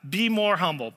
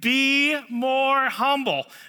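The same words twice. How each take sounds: First: It is said in a plain, calm way. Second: It is said forcefully, with strong intensity.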